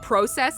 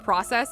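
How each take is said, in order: First: It is pronounced in a European-sounding way. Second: It is pronounced in a plain American way. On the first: "he pronounces like like process" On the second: "instead of"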